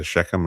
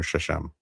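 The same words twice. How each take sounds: First: Shechem said "SHEK-um", with a k; Shechem with hard K. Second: Shechem said "SHESH-um", no k; soft sh in the middle of Shechem; Shechem with SH twice. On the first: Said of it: "not sure how to pronounce it". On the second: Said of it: "It's either Shechem or Shechem". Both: Shown as a demonstration.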